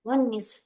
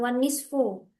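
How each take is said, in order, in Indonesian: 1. Kata ini berakhir dengan konsonan, tidak ada vokal akhir. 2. Kata ini berakhir dengan vokal pendek yang ditambahkan. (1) "Begitu kan" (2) "bukan wan nisfu. Kalau wan nisfu nanti eh, terdengar ya baru belajar gitu"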